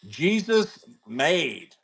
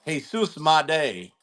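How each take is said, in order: First: "Jesus made" said the English way, JEE-zus MADE; anglicized name. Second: "Jesus Made" said the Spanish way, hay-SOOS mah-DAY; Spanish pronunciation. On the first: Host naming a player's card to chat, "Jesus made" anglicized. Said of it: "I've heard it pronounced every way". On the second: Host correcting the player's name to chat, "Jesus Made" in Spanish. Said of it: "probably the right way". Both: Shown as a demonstration.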